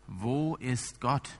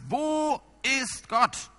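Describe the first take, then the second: First: The question is asked in a louder voice. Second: The question is shouted at full volume. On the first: The pressure on the listener grows. "die Stimme wird lauter" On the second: The asker is now furious and intimidating. "der Pastor brüllt ihn diesmal an"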